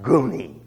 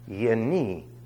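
First: The word begins with a hard g sound. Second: The word begins with a y sound. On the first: The speaker calls it wrong. "not Guni" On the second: The speaker calls it right. "It's Yeni"

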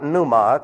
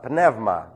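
First: The middle vowel sounds like oo. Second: The middle sounds like ev. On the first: The speaker calls it wrong. "It's not pneuma" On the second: The speaker calls it right. "it's pneuma. This is a diphthong"

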